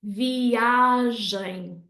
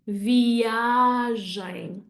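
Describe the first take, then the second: First: The stress falls before the last syllable. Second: The same.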